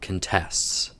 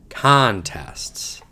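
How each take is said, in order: First: The stress is on the second syllable. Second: The stress is on the first syllable. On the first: It is used as a verb. "if it's a verb, the stress is on the second syllable" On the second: It is used as a noun. "If it's a noun, the stress is on the first syllable"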